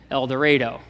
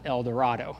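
First: The name is said with local Kansas pronunciation. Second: The name is said with Spanish pronunciation. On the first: "that's not how we Kansans say things. It's El Dorado" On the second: "if you speak Spanish or if you've taken Spanish, you know it's pronounced El Dorado"

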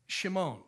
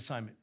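First: The name begins with a sh sound. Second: The name begins with a plain s sound. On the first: This is the original form of the name. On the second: This is the usual modern pronunciation.

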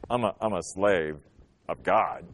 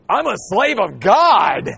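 First: It sounds hesitant and ashamed. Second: It sounds confident and proud.

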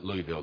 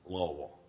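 First: The word is said crisply and clearly. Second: The word is mumbled as if through stuffed cheeks. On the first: The speaker calls it wrong. "you dare not call it Louisville" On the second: The speaker calls it right. "You take the cotton, you shove it deep on each side"

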